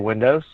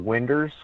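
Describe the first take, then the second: First: It is said in a Washington accent. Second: It is said in a Southern regional accent. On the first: This is how the listeners say it. "You guys say windows" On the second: This is how people back home say it. "where I'm from"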